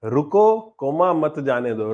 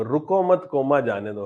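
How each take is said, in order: First: Recited slowly, splitting it after रुको; pause after रुको. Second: रुको मत run together, break at the comma; recited slowly, splitting it after मत; pause after मत. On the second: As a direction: say रुको मत as one phrase, then the spoken comma, then जाने दो. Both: Shown as a demonstration. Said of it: "पढ़ते थे ना line बचपन में".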